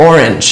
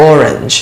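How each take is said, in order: Both takes have the same delivery.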